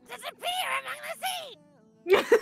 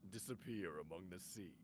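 First: It is said in a Toad impression voice. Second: It is said in a very deep voice.

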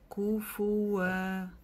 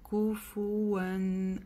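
First: The word ends with a long vowel. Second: The word ends with an N sound. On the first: The reading stops at this word. "остановившись в этом месте, мы прочитаем так" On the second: The reading continues into the next word. "Продолжение, как вы слышали, я это алиф не читала"

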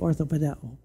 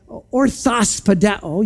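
First: No s sound follows ortho in the word. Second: An s sound follows ortho in the word. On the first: The speaker calls it right. "you say orthopedeo" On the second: The speaker calls it wrong. "You don't say orthospedeo"

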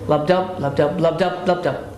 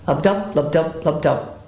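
First: The beats speed up and then slow down. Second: The beats are steady, then a gap follows. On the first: The heart rate rises and falls regularly. "there is a regular speeding up and slowing down" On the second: The heart seems to skip beats. "the animal may appear to be actually dropping beats"

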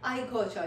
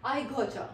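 First: The words got and you blend into gotcha. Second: The words got and you blend into gotcha.

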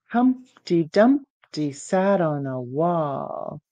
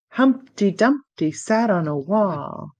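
First: It is said at a normal speed. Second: It is said fast.

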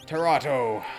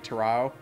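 First: The second T sound is pronounced. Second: The second T sound is silent. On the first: The speaker calls it wrong. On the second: The speaker calls it right.

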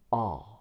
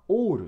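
First: The vowel is an open 'ah' with jaw pulled back. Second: The vowel is a short rounded Japanese 'o'. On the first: The speaker calls it right. "顎を手前後ろに引くあなんですよ" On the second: The speaker calls it wrong. "日本人の方はall って言っちゃいます。お、お、なんかびっくりした感じになっちゃうんです"

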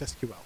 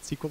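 First: It is said as three separate letters. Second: It is said as one word, like sequel. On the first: The speaker calls it right. "it's SQL" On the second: The speaker calls it wrong. "it's not SQL"

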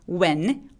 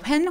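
First: It starts with a plain w sound. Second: A breathy h sound comes before the w. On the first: The speaker calls it right. "H를 무시하고 W 발음만 내죠" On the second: The speaker calls it wrong. "할머니 할아버지들이 발음할 것 같은 그런 발음"

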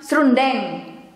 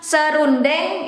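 First: The word is said with two syllables. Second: The word is said with three syllables.

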